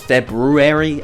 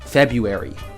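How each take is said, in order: First: The R after the B is pronounced. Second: The R after the B is left out. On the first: The speaker calls it right. "But it's February" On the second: The speaker calls it wrong. "I didn't know there was an R after that B. I always said February"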